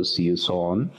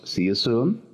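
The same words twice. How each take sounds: First: "See you soon" with "soon" said like "sohn"; double O read as O. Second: "See you soon" with "soon" rhyming with "moon"; long oo in soon. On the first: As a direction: show the mistake: an O sound in "soon". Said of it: "No decimos con doble O". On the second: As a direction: say "soon" with a U sound, ending on a rise. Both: Shown as a demonstration.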